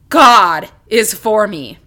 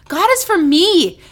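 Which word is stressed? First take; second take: God; me. First: The stress is on God. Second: The stress is on me.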